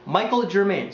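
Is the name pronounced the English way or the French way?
English. The name is pronounced the English way.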